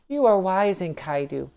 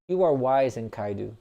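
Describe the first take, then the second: First: It is read in a put-on feminine voice. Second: It is read in the speaker's ordinary voice. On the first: The speaker calls it right. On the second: The speaker calls it wrong.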